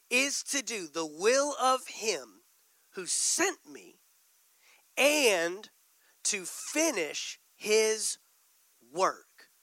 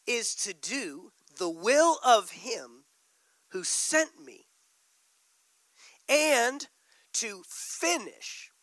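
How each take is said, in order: First: Drawn-out, weighted reading; slow emphatic reread. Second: Each phrase slowed and pressed; slow emphasis. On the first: Preacher rereading the verse for the church, slow and emphatic. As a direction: read it even slower, pressing words. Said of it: "Let's look at that verse again". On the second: Preacher reading scripture to the church, slow and weighty. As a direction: read it slowly, weighing words. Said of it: "Look what he says". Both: Real, not acted.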